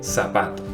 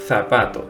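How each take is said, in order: First: The first sound is an s sound. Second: The first sound is a th sound. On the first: This is how it is said in Latin America. "in Latin America, it is pronounced like s" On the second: This is how it is said in Spain. "In Spain, for example, it is pronounced like th"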